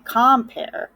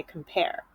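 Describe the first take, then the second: First: "compare" wrongly stressed as COM-pare; full "kahm" at the start of "compare", stressed; stress on first syllable. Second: "compare" said softly as com-PARE; reduced "kum", then stressed PARE in "compare"; soft, correctly stressed com-PARE; stress on second syllable. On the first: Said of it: "We don't say compare". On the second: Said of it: "we say compare". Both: Shown as a demonstration.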